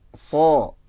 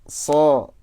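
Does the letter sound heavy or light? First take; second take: light; light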